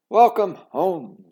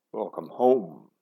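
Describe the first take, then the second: First: Slow, loud, high greeting; warm welcome. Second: Lightly voiced father. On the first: Mother welcoming her daughter home, warmly. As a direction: open your arms with it. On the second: Father greets daughter. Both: A narrator's reading.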